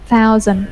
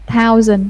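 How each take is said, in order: First: It begins with a soft th sound. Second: It begins with a hard t sound. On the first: The speaker calls it right. "Like thank you" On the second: The speaker calls it wrong. "đọc giống giống thờ tiếng Việt của mình"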